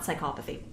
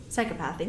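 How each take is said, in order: First: "psychopathy" stressed on COP; rejected pronunciation. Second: "Psychopathy" with a short a in PATH; corrected pronunciation. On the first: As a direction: say "psychopathy" as sy-KOP-uh-thee. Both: Shown as a demonstration. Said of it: "not psychopathy".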